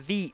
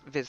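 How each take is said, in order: First: The word is said without a final z sound. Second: The word is said as 'viz', ending in z. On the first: The speaker calls it right. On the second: The speaker calls it wrong.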